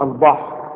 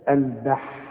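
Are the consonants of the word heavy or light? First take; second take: heavy; light. First: The consonants are heavy and emphatic. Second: The consonants are light and thin. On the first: The speaker calls it wrong. "اوعى تقول لي البحر، شوف الأل غلط، با غلط، حا غلط" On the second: The speaker calls it right. "لا البحر"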